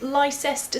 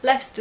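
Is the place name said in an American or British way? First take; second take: American; British. First: It is said with an American pronunciation. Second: It is said with a British pronunciation. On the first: The speaker calls it wrong. "when you say things like" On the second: The speaker calls it right. "instead of"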